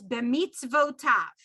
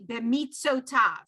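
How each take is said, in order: First: A v sound comes before the o vowel. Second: No v sound comes before the o vowel. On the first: The word is read with the shva as written. "way that it's written is" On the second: The word is read as if the shva were absent. "If there was no shva, it would be"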